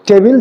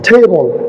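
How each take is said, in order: First: The word is said with a Bengali pronunciation. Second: The word is said with an English pronunciation. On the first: "টেবিল যেটাকে আমরা বলি বাংলায়" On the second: "এটার English হলো টেবল"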